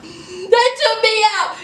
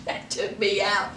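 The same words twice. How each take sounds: First: Said in the usual way. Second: Low, soft, almost under her breath; dropped low and soft; quiet aside. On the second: Real, not acted. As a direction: murmur it to yourself, spent from laughing. Repeats punchline to herself.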